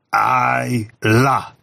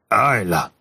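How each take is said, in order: First: The name is said very slowly, syllable by syllable. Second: The name is said at a normal pace.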